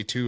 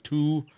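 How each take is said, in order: First: Said in the usual way. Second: "two" with a long drawn-out oo; "two" as a long, loose Wisconsin "tooo"; elongated vowel. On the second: Shown as a demonstration. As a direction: stretch the vowel in "two", pitched up. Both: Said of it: "you elongate your vowels a little bit more".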